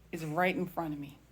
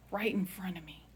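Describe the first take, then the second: First: Said in the usual way. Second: "Right in front of me" repeated as a soft whisper. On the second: Shown as a demonstration. Telling her family, she whispers "Right in front of me". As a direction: let "Right in front of me" fall to a hushed breath.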